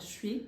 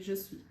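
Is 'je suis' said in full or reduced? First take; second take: reduced; full. First: The two words are squeezed into one reduced syllable. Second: The two words are said fully and separately.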